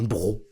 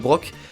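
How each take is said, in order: First: The word ends with an o sound. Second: The word ends with a k sound. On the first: The speaker calls it right. "On m'a dit que ça s'appelait un bro" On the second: The speaker calls it wrong. "je lis les mots comme je les vois, et comme j'imagine qu'ils se prononcent, mais je fais des erreurs"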